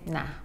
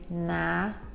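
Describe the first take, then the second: First: The word is said short and quick. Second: The word is drawn out and lengthened. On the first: "someone just say nah" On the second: "It might be elongated slightly"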